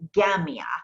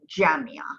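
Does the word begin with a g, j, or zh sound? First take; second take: g; j. First: It starts with a hard g sound. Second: It starts with a j sound. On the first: This is how Egyptians say it. "Egyptians will say Gamia" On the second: This is the standard form used everywhere. "the modern standard pronunciation of the Jim is Ja"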